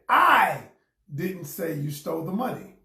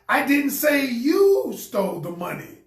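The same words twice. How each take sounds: First: The stress is on the word I. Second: The stress is on the word you.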